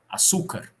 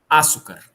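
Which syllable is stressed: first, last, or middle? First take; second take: middle; first. First: The stress is on the middle syllable. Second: The stress is on the first syllable. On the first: "Se ela fosse paroxítona" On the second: "Se ela fosse proparoxítona"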